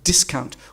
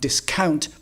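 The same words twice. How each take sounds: First: The stress is on the first syllable. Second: The stress is on the second syllable. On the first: The speaker calls it right. "with the stress on the first syllable" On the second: The speaker calls it wrong. "The correct pronunciation is not discount"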